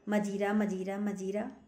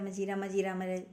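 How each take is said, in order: First: The word is repeated slowly. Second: The word is repeated quickly. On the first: "धीरे धीरे बोला" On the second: "जरा जल्दी जल्दी बोलो"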